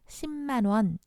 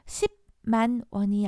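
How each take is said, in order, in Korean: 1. 첫 음절은 ㅁ 받침, 즉 비음으로 끝나요. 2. 첫 음절은 ㅂ 받침, 즉 파열음으로 끝나요. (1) "이런 식으로 비읍이 미음, 비음, 미음으로 달라졌어요" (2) "십만 원이 아니라"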